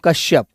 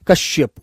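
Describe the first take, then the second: First: The word ends on the consonant 'p'. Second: The word ends with a final 'u' vowel. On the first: The speaker calls it wrong. "वो गलत बोला जाता है बच्चों" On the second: The speaker calls it right. "लेकिन कश्यपु होता है वो।"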